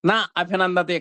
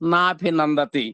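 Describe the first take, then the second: First: The two words are said separately. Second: The two words are merged into one word. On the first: "నా అభినందతి కాస్త నాభినందతి" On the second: "కాస్త నాభినందతి"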